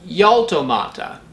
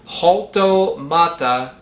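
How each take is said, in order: First: It begins with a gliding y sound. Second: It begins with a light breathy h sound. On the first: "with an English Y" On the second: "pronounce the J as in the J in Mexican Spanish"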